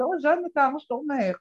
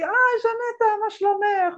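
First: Put-on greeting in a light Moroccan accent; a hint of Moroccan Hebrew accent; elderly Moroccan woman greeting the lecturer, Moroccan accent. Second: Put-on high-pitched old-lady hello; old woman greeting the lecturer in a high voice. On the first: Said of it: "במבטא מרוקאי כזה".

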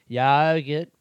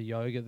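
First: Louder mock Aboriginal accent; one word in a put-on Aboriginal accent; imitated Aboriginal accent. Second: Said in the usual way. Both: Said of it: "the Aboriginal voice".

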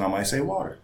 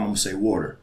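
First: "water" pitched up in a careful, proper voice; talking to white people. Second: "water" in his casual home voice; talking to mom. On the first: Talking to a white person, careful higher "water". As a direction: say "water" higher, as if minding your speech. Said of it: "If I'm talking to a white person". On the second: Talking to his mom, casual home pronunciation of "water". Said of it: "If I'm talking to my mom". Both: Shown as a demonstration.

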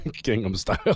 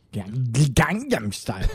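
First: the title said with a nasal first syllable and rising end; correct pronunciation. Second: the title said slowly with flat Gang-ham vowels; mispronounced name. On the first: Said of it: "Oh, is it Gangnam?". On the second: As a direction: draw out the title slowly, hesitant. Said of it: "how do you". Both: Real, not acted.

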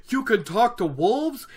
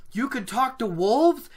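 First: Acted aghast disbelief, pitched high; Perrin. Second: Acted wonder, high with rising end; Perrin. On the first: Perrin dismayed by talking to wolves, acted aghast. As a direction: recoil from the idea, high incredulous question. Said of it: "said Perrin aghast". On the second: Perrin amazed by talking to wolves, acted wonder. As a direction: marvel at it, voice lifting into a question. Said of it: "said Perrin in wonder". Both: Shown as a demonstration.

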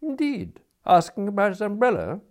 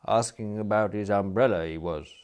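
First: High, loud echoing question; surprised query. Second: Cool, restrained report; touch of coldness. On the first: Smith echoes the attendant's report, surprised and questioning. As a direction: echo it back with lifted, mock-polite surprise. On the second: Attendant reports to Smith with a touch of coldness. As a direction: report it with a slight chill. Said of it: "with a touch of coldness". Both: A narrator's reading.

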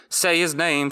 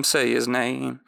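First: Sung higher like a pop hook; sung, mock pop song. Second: Half-sung echo, back down to the usual pitch; sung, mock pop song, echo. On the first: Recapper riffs on a pop song about Davos's son, sung higher. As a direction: croon it like a girl-group chorus. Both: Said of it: "Latest hit from, uh, Davos's child?".

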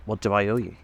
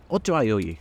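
First: Said in the usual way. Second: Mildly harsh demand. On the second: A narrator's reading. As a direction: ask it curtly, with a hard edge. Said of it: "demanded Tom harshly".

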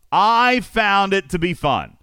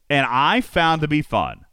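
First: Fun stretched out slow and high; emphasized. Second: Said in the usual way. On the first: Shown as a demonstration. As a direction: land hard on fun.

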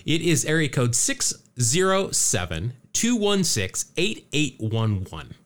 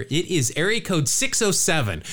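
First: Slow "six zero seven", each digit set apart; careful dictation. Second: Area code run together, "six oh seven" in one go; rattled off. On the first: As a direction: read out "two one six, eight eight one one" digit by digit. Repeats phone number for listeners. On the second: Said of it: "I'll rattle it off here". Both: Real, not acted.

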